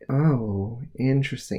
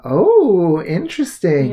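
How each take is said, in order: First: It sounds dismissive and unimpressed. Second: It sounds genuinely intrigued and impressed.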